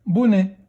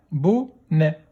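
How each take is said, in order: First: Said in the usual way. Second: "Bonnet" split into bo, nè; a gap inside "Bonnet"; syllable by syllable. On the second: Shown as a demonstration. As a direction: sound out "Bonnet" in two beats. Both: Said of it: "Deuxième syllabe".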